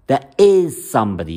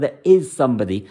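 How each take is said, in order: First: Said in the usual way. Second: "is" pressed firmly and held, falling after it; stress on is. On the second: Shown as a demonstration. Astrologer telling doubtful singles, stress on "is". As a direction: lean hard on "is", not on somebody. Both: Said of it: "You've got to emphasize the word".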